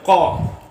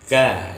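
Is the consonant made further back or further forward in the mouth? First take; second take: back; forward. First: The consonant is made further back in the mouth. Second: The consonant is made further forward in the mouth. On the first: The speaker calls it wrong. "jangan qa" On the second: The speaker calls it right. "sudah ketemu ka di depan makhraj qa"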